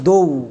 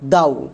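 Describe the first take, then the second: First: The vowel sounds like 'oh' in go. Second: The vowel sounds like 'ow' in cow. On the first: The speaker calls it right. "এর উচ্চারণটা করা হয় দৌ।" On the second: The speaker calls it wrong. "এটা আমাদের ভুল উচ্চারণ।"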